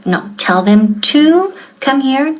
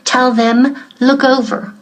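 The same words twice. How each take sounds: First: "to" slightly lifted and clear; stress on to. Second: Said in the usual way. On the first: Shown as a demonstration. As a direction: make sure "to" is heard. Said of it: "No olvides el to". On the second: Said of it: "No me digas".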